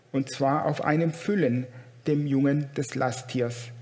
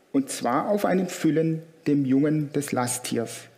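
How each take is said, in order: No difference in how they are said.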